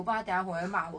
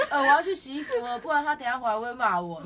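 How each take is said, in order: First: Said in the usual way. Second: Louder, quoting her through laughter; mock the sobbing friend while laughing; laughing quote. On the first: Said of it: "然后去洗衣服". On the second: Retelling friend's crying call, laughing through the quote. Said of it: "他说".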